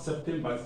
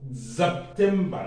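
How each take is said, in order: First: It begins with an S sound. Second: It begins with a Z sound. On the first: The speaker calls it wrong. "not September ... I pronounced it English" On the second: The speaker calls it right. "It's September"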